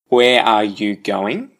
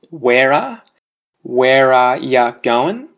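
First: Every word is said in full. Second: 'Where are' is contracted and 'you' becomes 'ya'. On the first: "obviously no change" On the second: "and then we contract where with are"

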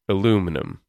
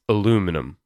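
First: The word has four syllables. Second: The same.

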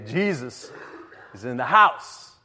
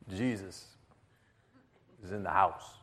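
First: It is said a bit louder. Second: It is said quietly.

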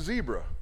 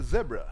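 First: Zebra is said the American way, first vowel 'ee'. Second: Zebra is said the British way, first vowel 'eh'.

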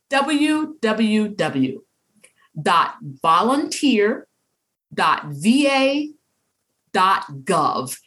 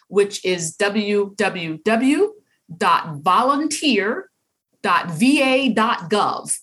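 First: The address is said very slowly. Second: The address is said at normal speed.

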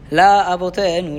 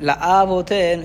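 First: The syllable after 'la' carries no extra stress. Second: The syllable after 'la' carries extra stress. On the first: The speaker calls it right. "It's la avotenu" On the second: The speaker calls it wrong. "It sounded like you put the mamid on the aleph"

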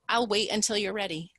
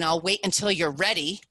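First: It is said calmly, without judgment. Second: It is said in an annoyed, judgmental tone. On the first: The speaker is patiently giving the other person time. The speaker calls it right. "I will simply say now to anybody" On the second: The speaker resents having to wait. The speaker calls it wrong. "And it's not, fine"

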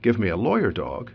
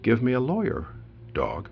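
First: Lawyer dog runs together with no pause. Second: A short pause separates lawyer and dog.

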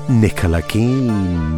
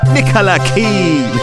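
First: The name is said with little energy. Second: The name is said with lots of energy.

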